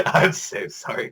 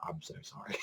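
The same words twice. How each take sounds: First: Slow, laughing, half-whispered apology. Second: Breathy whispered apology, barely audible. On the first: Character apologizes to Hijikata, slow laughing apology. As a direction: let the laughter break through the apology. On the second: Character apologizes to Hijikata, near-silent whisper. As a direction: whisper the apology through stifled laughter. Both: Retold or imitated. Mock apology at episode end.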